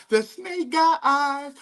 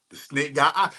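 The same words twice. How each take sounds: First: Much higher and slow, stretched out for effect; drawn-out ominous. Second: Said in the usual way. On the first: Real, not acted. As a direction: draw it out high and slow like a warning. Repeated ominously high and slow.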